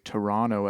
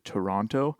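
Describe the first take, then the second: First: The middle T is dropped. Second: The middle T is clearly pronounced. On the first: This is how Canadians say it. "people from Canada often say Toronto" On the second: This is how Americans say it. "as opposed to Toronto. I notice people in the States say Toronto and they pronounce the T a lot more"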